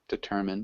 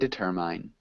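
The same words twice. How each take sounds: First: The second syllable has a short I vowel. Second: The second syllable has a long I vowel. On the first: The speaker calls it right. "Short I" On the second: The speaker calls it wrong. "we wouldn't say determine"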